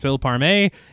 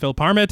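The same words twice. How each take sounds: First: The name is pronounced the French way. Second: The name is pronounced the American way. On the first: The person would be French. "If he's French" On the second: The person would be American. "If he's American"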